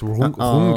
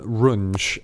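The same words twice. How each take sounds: First: The name is said with a German-style pronunciation. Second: The name is said with an English-style pronunciation. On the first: The speaker calls it right. "It's Runge, I believe" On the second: The speaker calls it wrong. "I believe in that episode I called him Runge"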